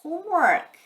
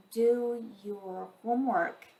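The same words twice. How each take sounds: First: Homework said alone, much higher and louder; emphasized word. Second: Said in the usual way. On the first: Shown as a demonstration. Mother insisting on homework to child, stressed Homework. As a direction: punch Homework as a stern repeat. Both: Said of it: "When you emphasize this greatly".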